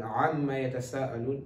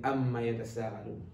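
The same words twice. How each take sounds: First: Amma begun with the Ain throat sound; correct Ain. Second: Amma begun with a plain Alif vowel; Ain as Alif. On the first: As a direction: recite Amma yatasa'alun with a true Ain. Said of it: "don't pronounce Ain as Alif". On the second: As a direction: show the mistaken Amma without the throat sound. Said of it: "you will be saying". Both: Shown as a demonstration.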